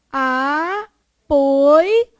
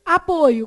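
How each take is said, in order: First: Apoio as loud, separate a, poi, o; syllable by syllable. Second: Said in the usual way. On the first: Shown as a demonstration. Teacher dividing Apoio for the class, syllable by syllable. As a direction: break Apoio into long held syllables. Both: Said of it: "como é que vai ficar?".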